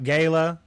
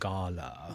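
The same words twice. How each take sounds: First: It is said in a Southern accent. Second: It is said in a sophisticated, posh accent.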